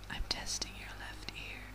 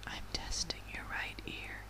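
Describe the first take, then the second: First: Distant whisper at the left ear. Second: Whisper in right ear. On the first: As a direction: lean to the left ear and breathe it. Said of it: "let me try whispering here". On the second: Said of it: "I'm gonna whisper into your ear". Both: Acted.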